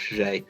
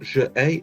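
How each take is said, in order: First: It is said as one joined sound. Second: It is said as two separate sounds. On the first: The speaker calls it right. "just J. Roll it all through together" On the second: The speaker calls it wrong. "It's not je A, it's not two separate sounds"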